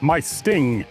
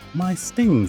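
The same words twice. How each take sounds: First: It is said in an ordinary, unaltered voice. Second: It is said in a put-on character voice. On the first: "that didn't sound like Proto or Bilbo at all" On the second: "That better?"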